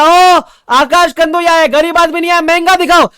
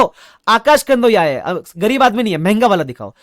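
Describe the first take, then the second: First: Mock rich customer yelling for the costliest laptop; hammed-up grand boast. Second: Mock-grand boast at the shop counter; showy boast. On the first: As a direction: bellow it like an over-the-top rich man. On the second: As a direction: stretch it out like a rich man showing off. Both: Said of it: "मैंने बोला".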